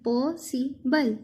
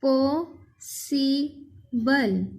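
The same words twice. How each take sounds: First: possible slowly, short gaps between "पॉ", "सि", "बल"; three slow close-set beats on possible; split into three. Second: possible as "पॉ", "सि", "बल" with long pauses; split into three. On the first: Teacher pointing out three parts, possible slow and split. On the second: Teacher dividing a word, possible in three far-apart beats. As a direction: say possible very slowly in three parts. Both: Shown as a demonstration. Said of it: "इसके हमने तीन हिस्से".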